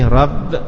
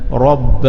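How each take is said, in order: First: The r sound is light and thin. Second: The r sound is heavy and thick. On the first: The speaker calls it wrong. "tak boleh rabb" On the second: The speaker calls it right. "ra tu mesti tafkhim"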